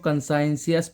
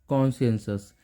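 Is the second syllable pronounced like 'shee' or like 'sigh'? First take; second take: sigh; shee. First: The second syllable sounds like 'sigh'. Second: The second syllable sounds like 'shee'. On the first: The speaker calls it wrong. "कई लोग इसको कंसाइंसियस पढ़ लेते हैं, वो गलत है।" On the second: The speaker calls it right. "इसका प्रोनाउंसिएशन है"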